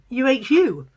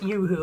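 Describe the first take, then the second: First: The name is spelled out letter by letter. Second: The name is said as one word. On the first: "or whether you're supposed to pronounce it U-H-U, like UHT milk" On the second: "I don't know if you're supposed to pronounce it Yoo-hoo"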